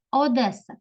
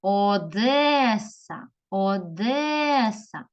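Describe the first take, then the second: First: Said in the usual way. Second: Одеса slowly, with a very long е; calling the word. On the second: Shown as a demonstration. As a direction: call out Одеса, stretching де. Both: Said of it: "кличемо слово".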